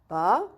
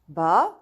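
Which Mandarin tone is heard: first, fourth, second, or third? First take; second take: second; second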